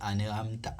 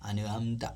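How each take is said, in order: The two takes are said the same way.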